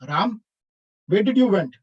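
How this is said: It is said in an angry, displeased tone. The speaker is unhappy about where Ram went. "like in an angry mood"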